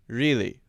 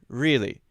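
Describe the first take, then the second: First: The R is flat and sounds weak and unrounded. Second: The R is flat and sounds weak and unrounded.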